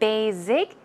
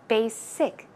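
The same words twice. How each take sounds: First: The middle consonant is a buzzing Z sound. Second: The middle consonant is a hissing S sound. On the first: The speaker calls it wrong. "It's not basic, it's basic. / a number of people actually pronounce that word as basic. Z. Z sound, that is incorrect" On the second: The speaker calls it right. "Try to pronounce it with a SS. ... A thick S sound"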